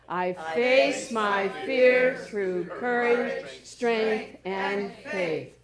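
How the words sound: It is proclaimed loudly and strongly.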